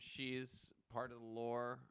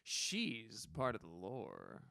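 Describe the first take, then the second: First: It is said flatly, without enthusiasm. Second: It is said with lively, enthusiastic inflection. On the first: The speaker calls it wrong. "with like no enthusiasm" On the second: The speaker calls it right. "The inflection makes everything better"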